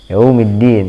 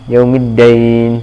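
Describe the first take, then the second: First: The last syllable has a plain 'i' vowel. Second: The last syllable has an 'ai' diphthong. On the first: It means the day of judgment. The speaker calls it right. "hari pembalasan" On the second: It would mean debt. The speaker calls it wrong. "Jangan sampai dibaca yaumiddain"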